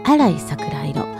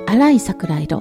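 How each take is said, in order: First: The stress in arai is on the first syllable. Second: The stress in arai is not on the first syllable. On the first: The speaker calls it right. "発音アクセントは荒いと先に作ります" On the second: The speaker calls it wrong. "私間違えてしまって"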